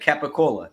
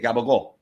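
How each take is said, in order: First: Said in full, ending on a vowel sound. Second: Said clipped and voiced, ending on a consonant. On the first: This is the real name of the ham. "capicola is an actual ham" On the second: This is how locals twist it with their accent. "it gets like twisted with like their accents"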